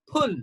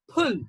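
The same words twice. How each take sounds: First: The word is said in a British English accent. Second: The same.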